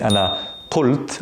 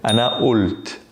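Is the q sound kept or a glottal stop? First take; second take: kept q; glottal stop. First: The qaf is said as a full q sound. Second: The qaf becomes a glottal stop, Levantine/Egyptian style.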